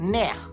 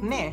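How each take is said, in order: First: The word ends with a strong, breathy h. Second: The word ends plainly with no extra emphasis. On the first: "May emphasis sa dulo" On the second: "Instead of ne"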